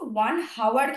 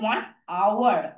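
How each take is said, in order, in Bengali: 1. 'Hour' শুরু হয় একটি স্পষ্ট H ধ্বনি দিয়ে। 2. 'Hour' সরাসরি একটি স্বরধ্বনি দিয়ে শুরু হয়। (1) "ওয়ান হাওয়ার কিন্তু আমরা বলি না" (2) "আমরা উচ্চারণ করি হচ্ছে ওয়ান আওয়ার"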